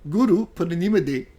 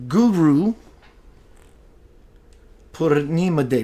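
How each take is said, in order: First: The term is pronounced with Hindi sounds. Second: The term is pronounced with plain English sounds.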